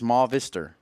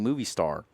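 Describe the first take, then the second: First: The first part is a short 'ma' or 'mo' sound. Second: The first part sounds like the English word movie. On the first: The speaker calls it right. "It's Ma Vister. And you know what? You're probably right" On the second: The speaker calls it wrong. "please stop saying movie star"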